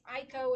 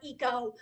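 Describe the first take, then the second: First: The name begins with an 'eye' sound. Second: The name begins with an 'ee' sound. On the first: The speaker calls it right. "It's it's Aiko" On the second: The speaker calls it wrong. "It's not Eco"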